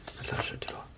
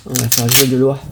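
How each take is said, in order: First: Whispered, quick and soft; a quick aside whispered under the breath. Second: Said in the usual way. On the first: Real, not acted. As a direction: hush it to yourself, quickly. Says it, then whispers it.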